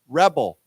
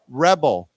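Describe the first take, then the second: No difference in how they are said.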